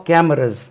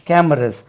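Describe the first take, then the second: No difference in how they are said.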